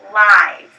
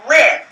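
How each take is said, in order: First: The vowel is a long i sound. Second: The vowel is a short i sound. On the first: "this word can also be pronounced live" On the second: "It doesn't"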